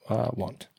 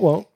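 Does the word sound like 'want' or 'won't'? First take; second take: want; won't. First: The word rhymes with 'font'. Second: The word rhymes with 'don't'. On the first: "I'll pronounce it want" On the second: "You can just keep pronouncing it won't"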